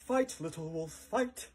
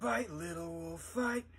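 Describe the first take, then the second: First: It is said in a polished, classy way. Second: It is said in a rough, gritty way.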